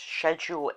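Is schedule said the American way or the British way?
British. The word is said the British way. "in Britain"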